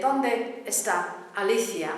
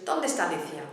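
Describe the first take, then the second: First: ¿dónde está Alicia? each word clear and apart; carefully separated. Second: ¿dónde está Alicia? all vowels blended, quick; ¿dónde está Alicia? at native speed, merged; run together fast. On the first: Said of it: "we want to hear". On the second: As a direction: rattle off ¿dónde está Alicia? as one word. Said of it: "what we hear is". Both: Shown as a demonstration.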